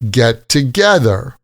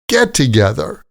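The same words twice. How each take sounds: First: The stress is on the second word. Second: The stress is on the first word. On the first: It is used as a verb. "When we say the verb, we stress the second word" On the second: It is used as a noun. "when we use the noun, we stress the first word"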